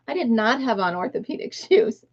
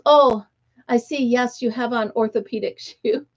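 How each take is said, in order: First: Said in the usual way. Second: Lightly imitated British woman's accent. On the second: Older woman to a stranger about her shoes, mock British accent. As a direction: put on a mild British accent. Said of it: "she had this British accent".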